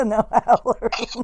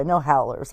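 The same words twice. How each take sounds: First: Drawn out slowly through real laughter; laughing. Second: Said in the usual way. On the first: Real, not acted. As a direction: repeat it while cracking up. Repeats it while laughing.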